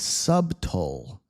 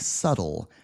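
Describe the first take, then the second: First: A b sound is pronounced in the middle. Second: No b sound is pronounced in the middle. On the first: The speaker calls it wrong. "it looks like you would say subtle" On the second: The speaker calls it right. "But that's a silent B"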